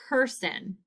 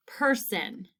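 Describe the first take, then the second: No difference in how they are said.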